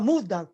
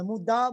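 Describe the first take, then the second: First: The stress falls on the first syllable. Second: The stress falls on the last syllable. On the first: The speaker calls it wrong. "Tem gente que fala muda" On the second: The speaker calls it right. "o japonês é oxítono, não é paroxítono"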